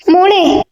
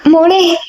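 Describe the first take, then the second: First: Higher call that breaks into a cry. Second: Higher, frightened call to a still daughter; fearful call. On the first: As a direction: her name again, now crying. (കരച്ചിലോടെ ഉയർന്ന വിളി) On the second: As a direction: call her name, afraid of no answer. (ഭയത്തോടെ ഉയർന്ന വിളി) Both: A narrator's reading. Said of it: "ഭയത്തോടെ മകളെ വിളിച്ചു".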